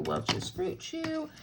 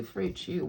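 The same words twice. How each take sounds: First: Slow, higher, playful sing-song on the brand name. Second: Said in the usual way. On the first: Pretend. Crafter dropping pretend candy in the box, playful sing-song. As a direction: savour the name like a treat.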